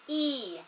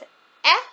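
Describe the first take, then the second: First: The vowel is said as its letter name. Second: The vowel is said as its short sound. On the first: "the vowel will say its name" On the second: "which says E for our short vowel sounds"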